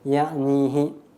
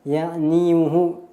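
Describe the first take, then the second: First: No vowel follows the y sound. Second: The y sound carries a full u vowel. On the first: The speaker calls it right. "maka dibaca sukun menjadi ya'nihi" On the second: The speaker calls it wrong. "itu sulit ya untuk berharokat dhammah"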